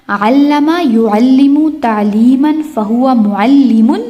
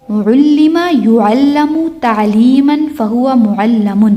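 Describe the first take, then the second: First: Slow recital, "علم" as allama, "معلم" as mu'allimun; active forms. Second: Slow recital, "علم" as ullima, "معلم" as mu'allamun; passive forms. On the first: Teacher drills active line, slow recital with "علم" as allama. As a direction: recite "یعلم" as yu'allimu, "معلم" ending limun, rising. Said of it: "تو ہم یہ یاد کر لیتے ہیں". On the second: Teacher drills passive line, slow recital with "علم" as ullima. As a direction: recite "يعلم" as yu'allamu, "معلم" ending lamun. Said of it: "past passive کی ساؤنڈ ہوتی ہے او ای". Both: Shown as a demonstration.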